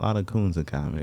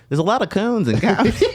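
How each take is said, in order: First: It is said in his own normal voice. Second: It is said imitating David's voice.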